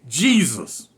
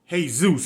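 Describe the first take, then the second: First: The name begins with a J sound. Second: The name begins with an H sound. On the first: This is how the guard actually said it. The speaker calls it wrong. "He said Jesus. That's exactly what he called him" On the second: This is the way the guard would not say it. The speaker calls it right. "he ain't gonna announce Jesus. He ain't gotta say it like that"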